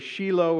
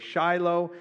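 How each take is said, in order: First: It is pronounced the way Israelis say it. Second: It is pronounced the way North Americans say it. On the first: "If you are in Israel, they say Shiloh" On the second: "If you're in North America, they say Shiloh"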